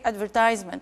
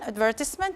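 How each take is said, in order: First: It is said with an American pronunciation. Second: It is said with a British pronunciation. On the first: "for the American pronunciation" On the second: "we have two British pronunciation"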